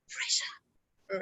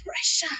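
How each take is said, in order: First: Pressure whispered, lips exaggerated; silently shape pressure for a lip-reader; whispered mouthing. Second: Said in the usual way. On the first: Shown as a demonstration. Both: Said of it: "you exaggerate the pronunciation".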